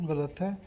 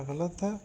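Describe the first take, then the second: No difference in how they are said.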